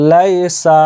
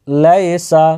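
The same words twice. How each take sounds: The two takes are said the same way.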